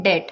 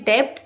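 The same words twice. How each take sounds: First: डेट with silent b, rhymes with bet; correct pronunciation. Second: डेब्ट with the b sounded, debt with b; wrong pronunciation. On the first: Teacher giving the correct डेट, silent b. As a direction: drop the b in डेट, just det. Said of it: "इसकी correct pronunciation होती है". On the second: Teacher showing the wrong डेब्ट with b sounded. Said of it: "बहुत से लोग बोलते हैं". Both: Shown as a demonstration.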